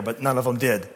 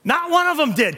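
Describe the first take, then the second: First: Said in the usual way. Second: Much higher and louder, hammering one; the preacher pounds the point a second time; loud preaching. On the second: Shown as a demonstration. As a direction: shout the repeat to drive it home.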